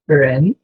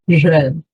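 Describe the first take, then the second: First: It begins with an English-like R sound. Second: It begins with an R mixed with a J. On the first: "Pode ser ren, igual no inglês o R do R" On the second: "ou pode ser esse R com um pouco de J também"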